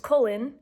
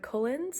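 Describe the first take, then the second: First: The name ends without an s sound. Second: The name ends with an s sound. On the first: The speaker calls it right. "It's Cullen, no S" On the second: The speaker calls it wrong. "I call him Edward Cullens"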